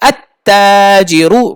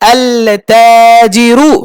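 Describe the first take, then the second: First: The L merges into a doubled T sound. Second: The article's L sound is pronounced clearly. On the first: The speaker calls it right. "আত হবে" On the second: The speaker calls it wrong. "না না, হয়নি। আল হবে না"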